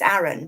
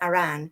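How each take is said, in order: First: The stress is on the first syllable. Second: The stress is on the second syllable. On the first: The speaker calls it wrong. "you might look at the name and think it's Aaron, but it's not" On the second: The speaker calls it right. "there's an emphasis on the second part of Aran's name"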